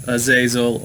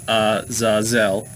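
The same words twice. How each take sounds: First: Azazel said uh-ZAY-zul; usual pronunciation. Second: Azazel said ah-zah-ZELL; alternative pronunciation. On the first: Host teaching viewers the name, Azazel as uh-ZAY-zul. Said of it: "which you can pronounce Azazel". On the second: Host showing how others say it, Azazel as ah-zah-ZELL. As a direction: say Azazel in three separated syllables, ah-zah-ZELL. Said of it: "some people pronounce it Azazel". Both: Shown as a demonstration.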